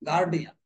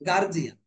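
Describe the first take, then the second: First: The consonant after 'guar' is a 'd' sound. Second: The consonant after 'guar' is a 'j' sound. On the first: The speaker calls it right. "উচ্চারণটা হবে গার্ডিয়ান।" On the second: The speaker calls it wrong. "গার্জিয়ান শব্দটা সম্পূর্ণই ভুল"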